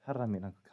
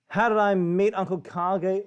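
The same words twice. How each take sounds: First: Softer, lower repeat of the question falling away at the end; musing to himself. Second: Slow, louder question with HOW stressed and a rising end; reading out the question. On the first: Trying to recall meeting Uncle Kage, a soft lower mutter. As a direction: turn inward and mutter it as you think. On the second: Reading a viewer question to the stream, slow and louder. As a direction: lift How and draw the question out for the chat. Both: Real, not acted.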